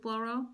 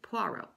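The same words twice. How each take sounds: First: The name is said the non-British way. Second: The name is said the British way. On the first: "I love Hercule Poirot" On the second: "in Britain people pronounce it Poirot"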